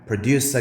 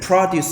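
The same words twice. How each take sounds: First: The stress is on the second syllable. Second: The stress is on the first syllable. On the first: It is a verb meaning to make. "produce 하게 되면 생산하다" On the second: It is a noun meaning farm produce. "강세를 produce 하게 되면 농산물"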